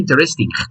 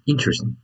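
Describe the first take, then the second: First: The stress falls on a later syllable. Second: The stress falls on the first syllable. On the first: The speaker calls it wrong. "You don't say interesting" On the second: The speaker calls it right. "the accent goes on the first I"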